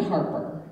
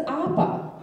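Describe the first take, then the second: First: Said in the usual way. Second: "Appa" for Harper, H and both R's dropped; [name]. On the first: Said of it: "she can't say the word Harper". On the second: Retold or imitated. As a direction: say "Appa" in British style, no H, no R. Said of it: "She says Appa".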